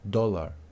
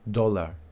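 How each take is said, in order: First: The vowel is a short rounded o sound. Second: The vowel is a short rounded o sound.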